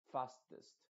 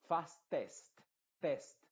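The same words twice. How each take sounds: First: Fastest with a half-closed, muffled E. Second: Fastest with a wide-open, clear E, louder; open mouth. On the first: Teacher models the right fastest. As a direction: say fastest with the mouth nearly closed on the E. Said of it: "cierras la boca". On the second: Teacher shows the wrong fastest. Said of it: "la boca la tienes muy abierta". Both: Shown as a demonstration.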